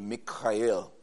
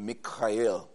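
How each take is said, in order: First: The name is said in its Hebrew form. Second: The name is said in its Hebrew form.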